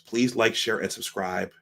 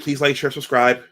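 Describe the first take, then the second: First: It is said slowly and clearly. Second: It is said fast.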